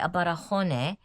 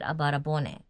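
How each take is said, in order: First: The last part begins with an h sound. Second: The last part begins with a b sound. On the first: The speaker calls it wrong. "they don't say abarahone" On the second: The speaker calls it right. "they put a b with it"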